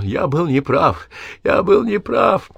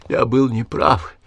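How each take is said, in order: First: Slow wheeze climbing much higher; wheeze rising to a cry. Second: Slow, raised wheeze; dying man wheezing a confession. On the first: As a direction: build from rasp to desperate cry. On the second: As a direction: rasp it out with failing breath. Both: A narrator's reading. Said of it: "хрипел он".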